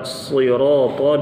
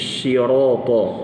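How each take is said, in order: First: The word starts with an emphatic s sound. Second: The word starts with an sh sound. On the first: The speaker calls it right. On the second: The speaker calls it wrong.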